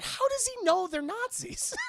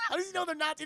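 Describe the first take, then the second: First: Much higher, louder disbelieving question; incredulous question. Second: Laughing through the question; laughing repeat. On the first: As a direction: ask it in total disbelief. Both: Real, not acted.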